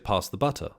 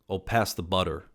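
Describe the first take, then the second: First: It is said in a non-American accent. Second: It is said in an American accent.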